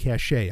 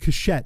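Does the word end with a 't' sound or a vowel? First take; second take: vowel; t sound. First: The word ends with an open vowel. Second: The word ends with a 't' sound. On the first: The speaker calls it right. "instead of cachet" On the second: The speaker calls it wrong. "I love saying cachette"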